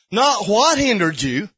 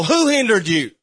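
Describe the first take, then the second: First: "what" drawn out as the rejected word; stress on WHAT. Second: "who" hit as the corrected word; stress on WHO. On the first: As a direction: lean slowly on "what". Contrasts what with who. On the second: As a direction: land firmly on "who". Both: Shown as a demonstration.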